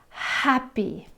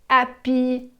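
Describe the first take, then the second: First: The H at the start is breathed out. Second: The H at the start is dropped. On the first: The speaker calls it right. "Try blowing out that H sound" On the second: The speaker calls it wrong. "where you swallow that sound"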